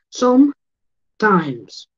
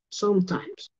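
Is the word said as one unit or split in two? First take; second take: split; one unit. First: The two parts are said separately with a break. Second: The two parts are joined into one word.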